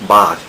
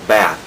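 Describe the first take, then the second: First: The vowel is a long open 'ah' sound. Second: The vowel is a flat front 'a' sound. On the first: "ถ้าเป็นคนอังกฤษก็จะพูด, bath, สระอา" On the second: "ถ้าเป็นอเมริกันก็จะพูด, bath, สระแอ"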